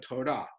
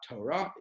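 First: "Torah" with the final syllable stressed; stress on last syllable. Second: "Torah" with the first syllable stressed. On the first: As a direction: land on the end of "Torah". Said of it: "on the last syllable". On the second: Teacher showing how not to say the word, first-syllable stress. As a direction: hit the front of "Torah", the wrong way. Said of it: "Not Torah, but Torah". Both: Shown as a demonstration.

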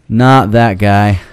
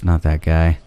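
First: Slow emphatic. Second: Said in the usual way. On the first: Shown as a demonstration.

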